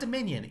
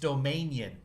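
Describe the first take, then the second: First: The word is said in the usual way. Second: The word is said to echo 'domain'. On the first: The speaker calls it wrong. "It's not Dominion" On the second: The speaker calls it right. "You're pronouncing it wrong"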